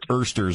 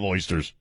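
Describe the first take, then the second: First: The word has a local, regional pronunciation. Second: The word has a standard, general pronunciation.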